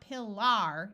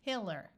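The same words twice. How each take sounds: First: The last syllable has a full ar vowel. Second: The last syllable is reduced to a schwa. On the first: The speaker calls it wrong. "So it's not pillar" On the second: The speaker calls it right. "it's pillar. ... when these A Rs schwa, it sounds more like an E R"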